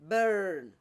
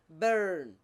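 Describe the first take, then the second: First: The R after the vowel is clearly pronounced. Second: The same.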